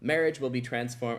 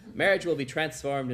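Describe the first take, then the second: First: It is said in the speaker's normal voice. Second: It is said in an exaggerated put-on voice.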